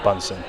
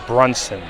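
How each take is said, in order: First: The name is said without an r: Bunsen. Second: The name is said with an r: Brunson. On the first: The speaker calls it wrong. "I mispronounced this. ... not Bunsen" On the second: The speaker calls it right. "This is Brunson"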